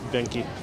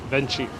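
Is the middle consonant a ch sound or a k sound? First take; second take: k; ch. First: The middle consonant is a hard k sound. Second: The middle consonant is a ch sound.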